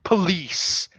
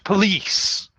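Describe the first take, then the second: First: The first vowel is a weak schwa sound. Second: The first vowel is a weak schwa sound.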